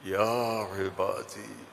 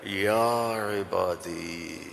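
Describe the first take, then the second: First: It is said in a warm, loving tone. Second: It is said in a warm, loving tone.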